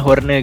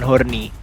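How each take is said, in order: First: The name ends without an 'ee' vowel. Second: The name ends with an 'ee' vowel. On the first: The speaker calls it right. "ini dibacanya Horne guys" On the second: The speaker calls it wrong. "bukan Horny"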